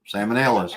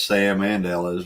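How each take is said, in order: First: It is said fast, words run together. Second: It is said slowly, each word separate.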